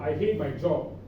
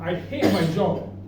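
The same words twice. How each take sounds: First: The sentence is said in a flat, plain tone. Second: The sentence is said with strong exclamatory force. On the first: The speaker calls it wrong. "This is not how you say I hate my job" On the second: The speaker calls it right. "It comes actually with an exclamation mark"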